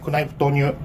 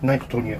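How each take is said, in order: First: The word knife begins with a k sound. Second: The word knife begins with an n sound. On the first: The speaker calls it wrong. "クナイフですね" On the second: The speaker calls it right. "K はね、発音しなくていいですよね"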